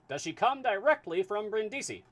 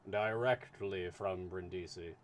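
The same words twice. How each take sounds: First: Put-on high, loud transatlantic accent asking; booming high transatlantic question; transatlantic voice for Fix. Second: Lower, slow, steady official answer; calm, measured consul reply. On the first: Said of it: "need a voice for Fix". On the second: Acted.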